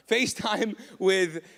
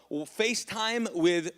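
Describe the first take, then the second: First: Laughing, FaceTime drawn out; FaceTime slow and louder. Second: FaceTime drawn out slowly; slow stress on FaceTime. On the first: Preacher to congregation, slow laughing stress. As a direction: stretch FaceTime again with a laugh. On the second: Preacher to congregation, FaceTime stretched slowly. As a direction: lean hard on FaceTime. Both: Shown as a demonstration. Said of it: "not, not an Apple term".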